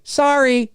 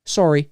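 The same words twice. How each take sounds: First: High-pitched "sorry" as SAR-ee; American SAR-ee, pitched way up. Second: "sorry" as SORE-ee; rounded "o" in sorry; short Canadian SORE-ee. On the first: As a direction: exaggerate the open "ah" in sorry. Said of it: "You guys say sorry". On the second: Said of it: "We're sorry". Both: Shown as a demonstration.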